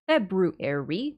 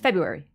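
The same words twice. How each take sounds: First: Every sound of the word is pronounced carefully. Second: Some sounds are dropped, giving a shortened form.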